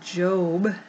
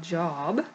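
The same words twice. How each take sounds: First: The vowel is a long O sound. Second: The vowel is a short O sound. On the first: The speaker calls it right. "create an O with our hands to remind us that we say it Job" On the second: The speaker calls it wrong. "not Job"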